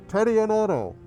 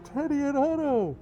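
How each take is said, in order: First: It is said in his normal voice. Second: It is said in a Bane impression voice.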